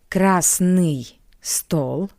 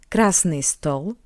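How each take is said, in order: First: The phrase is said slowly and carefully. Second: The phrase is said at normal speed.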